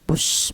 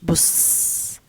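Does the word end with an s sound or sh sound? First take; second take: sh sound; s sound. First: The word ends with a sh sound. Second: The word ends with an s sound.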